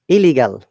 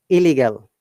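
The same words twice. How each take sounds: No difference in how they are said.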